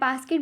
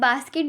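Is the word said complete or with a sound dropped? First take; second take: dropped; complete. First: One sound is left out of the word. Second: Every sound of the word is pronounced. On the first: A child cannot produce that sound. "कोई भी specific letters होंगे उनकी language के अंदर जिनको वो छोड़ देंगे" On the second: This is the intended word. "बास्केट बोलना है"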